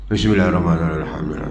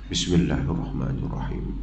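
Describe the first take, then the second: First: It is recited very quickly. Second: It is recited at a moderate, even pace. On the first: The imam rushes the recitation. The speaker calls it wrong. "Cepat betul baca" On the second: The reciter hears himself and keeps a proper speed. The speaker calls it right. "kalau bacaan begitu okey"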